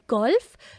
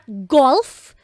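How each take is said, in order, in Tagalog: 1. Malambot ang pagbigkas ng G. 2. Matigas ang pagbigkas ng G. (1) "G as in golf" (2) "not golf, hindi galit"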